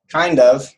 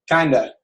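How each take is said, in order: First: It is said as two separate full words. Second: It is said quickly as one linked word.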